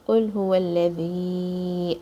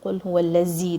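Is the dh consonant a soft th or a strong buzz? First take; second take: soft th; strong buzz. First: The dh sound is a soft th. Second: The dh sound is a strong buzzing z. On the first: The speaker calls it right. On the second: The speaker calls it wrong.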